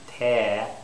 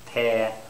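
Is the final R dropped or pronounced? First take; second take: dropped; dropped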